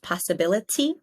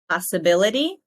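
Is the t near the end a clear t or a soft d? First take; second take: clear t; soft d. First: The t near the end sounds like a clear t. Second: The t near the end sounds like a soft d. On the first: "instead of" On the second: "we make this tiny d"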